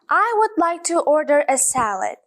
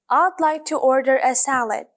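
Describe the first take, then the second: First: 'I would' is said as two full words. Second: 'I would' is shortened to one syllable. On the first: The speaker calls it wrong. "do you think native speakers say this when they are speaking? No" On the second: The speaker calls it right. "they use contractions and instead of saying I would, they say I'd"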